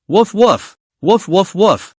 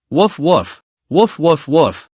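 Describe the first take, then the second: First: Higher, harder woofs trying to sound ferocious; fierce wolf dog bark. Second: Timid dog bark. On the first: Girl trying to bark like a ferocious wolf dog, higher and harder. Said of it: "learn the strength of a wolf dog". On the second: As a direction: bark like a little teddy dog. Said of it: "lying on the bed like a dog". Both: Acted.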